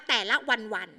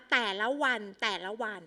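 First: Only "วัน" doubled at the end of "แต่ละวันวัน"; wrong repetition. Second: "แต่ละวัน" said in full, twice over; whole phrase repeated. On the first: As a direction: tack a second "วัน" straight onto the phrase. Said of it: "เราไม่อ่านว่า". (อ่านผิดโดยซ้ำแค่คำว่า "วัน") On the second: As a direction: repeat the whole of "แต่ละวัน", not just its last word. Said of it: "เวลาอ่านจึงอ่านว่า". (อ่านซ้ำ "แต่ละวัน" ทั้งวลี) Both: Shown as a demonstration.

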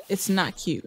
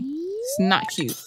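First: Low, matter-of-fact "It's not cute"; stern scolding. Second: Exasperated whine. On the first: Player scolds characters playing around, low and stern. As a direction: say it low, dropping the whine. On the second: Player scolds characters playing around, high drawn-out whine. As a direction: voice climbing high on a stretched CUTE. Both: Real, not acted.

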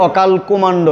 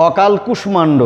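First: অকাল কুমাণ্ড said without the ষ, plain মা sound; common wrong pronunciation. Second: অকাল কুষ্মাণ্ড with the ষ clearly sounded; correct pronunciation. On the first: Teacher shows students the common mistake, অকাল কুমাণ্ড, plainly. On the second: Teacher gives students the correct form, অকাল কুষ্মাণ্ড, carefully. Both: Shown as a demonstration. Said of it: "হবে না কিন্তু".

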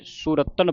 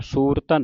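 First: ਸੁਰਤਨ with short "u" and doubled t; correct short vowel. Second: ਸੂਰਤਨ with long "oo", single t; wrong long vowel. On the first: Teacher models the right word, ਸੁਰਤਨ as "surattan". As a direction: say ਸੁਰਤਨ as "su-rattan". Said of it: "ਹੁਣ ਇੱਥੇ ਸੁਰਤਨ ਪੜ੍ਹਨਾ". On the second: Teacher shows students the misreading, ਸੂਰਤਨ as "soortan". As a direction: say ਸੂਰਤਨ as "soor-tan". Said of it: "ਇਹਨੂੰ ਸੂਰਤਨ ਨਹੀਂ ਪੜ੍ਹਨਾ". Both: Shown as a demonstration.

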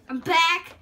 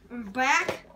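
First: Louder. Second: Said in the usual way. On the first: Shown as a demonstration.

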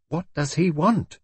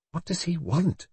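First: High, slower, more insistent nervous question; nervous repeat. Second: High, slightly hushed nervous question. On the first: Brenda repeating herself as the inspector nears, nervously insistent. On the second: Brenda watching the inspector approach, nervous. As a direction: ask it uneasily, pitched up high. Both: A narrator's reading. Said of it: "she repeated nervously".

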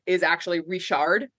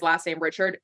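First: "Richard" said ree-SHARD; mock-French ending on "Richard"; French-style Richard. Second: "Richard" said RITCH-erd; plain English "ch" in "Richard". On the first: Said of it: "an unnecessary accent". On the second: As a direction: stress the first syllable of "Richard". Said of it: "thinking that his last name Richard". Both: Shown as a demonstration.

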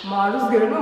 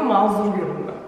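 First: "Maruz" r ile z yer değiştirmiş; "Maruz" bilerek yanlış telaffuz; maruz diye yanlış söyleme. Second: "mazur" z sonra r ile; "mazur" düzgün telaffuz; mazur diye doğru söyleme. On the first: ("Maruz" hatalı söyleyiş) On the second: ("mazur" doğru söyleyiş) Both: Shown as a demonstration.

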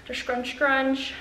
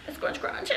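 First: Said in the usual way. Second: Whispered repeat. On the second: Real, not acted.

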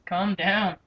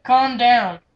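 First: Said in the usual way. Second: Firm and noticeably louder; loud mock command. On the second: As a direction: push it out like an exasperated order. Telling the raging friend off.

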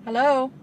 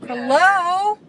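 First: Said in the usual way. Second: 1 calling out. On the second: Real, not acted. Calling to a blocking driver.

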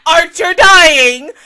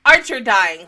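First: Slow, drawn-out, much louder and higher cry; anguished wail. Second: Said in the usual way. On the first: Real, not acted. Reliving a beloved character's death for viewers, wailing. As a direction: stretch it out like a wounded howl.

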